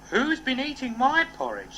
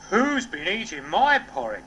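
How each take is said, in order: First: It is said in a medium voice. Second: It is said in a deep, gruff voice.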